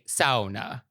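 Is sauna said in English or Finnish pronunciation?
Finnish. The word is said with a Finnish pronunciation. "I will try my best to say sauna"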